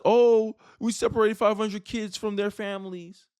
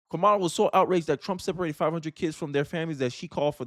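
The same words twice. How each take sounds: First: Hammed-up indignant gasp; mock outrage. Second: Said in the usual way. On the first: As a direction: mimic her outrage sarcastically. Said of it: "the same woman who was just mad at Donald Trump".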